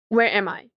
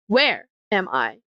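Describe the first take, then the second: First: No word stands out; the stress is even. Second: The word "where" is stressed more strongly. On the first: "Nothing is emphasized" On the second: "More towards the where"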